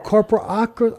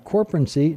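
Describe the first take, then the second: First: The word is said with five syllables. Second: The word is said with four syllables. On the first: The speaker calls it right. "give me the right way to say that" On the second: The speaker calls it wrong. "I said that wrong"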